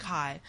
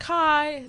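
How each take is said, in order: First: Low, quiet, unimpressed reply. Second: High, eager hello to a stranger; eager greeting. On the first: Guy in lecture answering an eager stranger, unimpressed. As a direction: drop it soft and uninterested, imitating him. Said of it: "so unimpressed". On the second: Student greeting the guy next to her in lecture, eagerly. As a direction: pitch it up, keen to make a friend. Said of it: "like, so unimpressed". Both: Retold or imitated.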